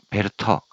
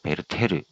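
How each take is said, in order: First: The name is said with two syllables. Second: The name is said with three syllables. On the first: This is the original German pronunciation. "독일어로 베르터라고 읽는 것 같은데" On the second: This is a Japanese-style pronunciation that became standard. "아쉽지만 일본식 발음입니다"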